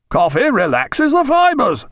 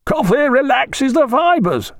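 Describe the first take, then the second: First: High, slow, emphatic repeat; louder, insistent. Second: High, slow, drawn-out pronouncement; authoritative call. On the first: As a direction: insist on it with surgeon's authority, rather louder. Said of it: "rather louder". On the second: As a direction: call it out as an authoritative ship's surgeon. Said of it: "called out the Thunderer's surgeon in an authoritative voice". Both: A narrator's reading.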